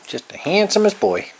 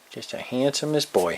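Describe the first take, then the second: First: Gushing praise. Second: Said in the usual way. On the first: Real, not acted. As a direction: lift it up, beaming with praise. Praising cat, repeated louder.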